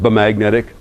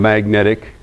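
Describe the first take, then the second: First: The word starts with a sounded B. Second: The word starts with an M sound. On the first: This is the old way of saying it. "it was originally pronounced" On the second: This is the modern way of saying it. "then it became magnetic, like mm"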